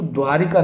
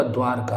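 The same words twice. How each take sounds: First: द्वारिका with "i" after the "r"; wrong form. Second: द्वारका with no "i" after the "r"; correct form. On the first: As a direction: say द्वारिका as "dvaa-ri-kaa". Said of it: "द्वारिका नहीं होगा". (द्वारिका में "रि" बोलें) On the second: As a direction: say द्वारका as "dvaar-kaa". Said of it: "द्वारका होगा". (द्वारका में "र" के बाद सीधे "का") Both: Shown as a demonstration.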